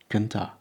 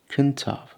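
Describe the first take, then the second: First: The final f is dropped entirely. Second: The final f is gently sounded as v. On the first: "many people don't" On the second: "You'll often hear people gently pronouncing this one"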